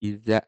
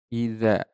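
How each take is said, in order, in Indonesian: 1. Konsonan tengahnya bunyi 'z' biasa. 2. Konsonan tengahnya bunyi 'th' yang lembut. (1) "dibaca seperti zai, iza" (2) "idza, tidak iza"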